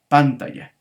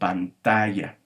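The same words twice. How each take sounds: First: The stress falls on the first syllable. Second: The stress does not fall on the first syllable. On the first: The speaker calls it wrong. "trata de pronunciar eh, la sílaba pan como una sílaba tónica" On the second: The speaker calls it right. "decimos pantalla"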